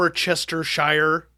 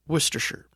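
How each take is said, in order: First: "Worcestershire" said as worcester-shire; full spelling pronunciation. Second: "Worcestershire" said as WUS-ter-sher, softer; short pronunciation. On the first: Expert mocks the naive spelling reading. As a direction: read "Worcestershire" with all syllables. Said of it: "you would perhaps think". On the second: Expert gives the real short pronunciation. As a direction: clip "Worcestershire" down to wuster-sher. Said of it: "it is now pronounced". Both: Shown as a demonstration.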